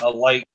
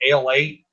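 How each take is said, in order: First: It sounds like the phrase 'a light'. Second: It sounds like two words, 'ale eight'. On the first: This is what it is really called. The speaker calls it right. "it's really called a light" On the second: This is how many local people say it. The speaker calls it wrong. "A lot of Kentucky people pronounce it ale eight"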